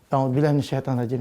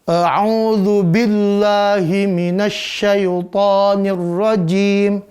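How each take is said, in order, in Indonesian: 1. Dibaca dengan ceroboh dan asal-asalan. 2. Dibaca dengan cermat dan tepat. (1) "Kita baca sendiri" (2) "Kalau depan guru bacaannya bagus banget ya"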